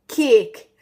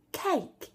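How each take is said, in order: First: Loud cake turned into "keek"; mocked Geordie cake. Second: High, falling cake with a gliding "ay"; daughter's non-Geordie cake. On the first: Daughter's tease of mum's accent, loud Geordie cake. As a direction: punch cake out as Geordie "kee-uk". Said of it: "Mummy says". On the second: Retold or imitated. Mother quoting her teasing daughter, high standard cake. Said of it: "I say".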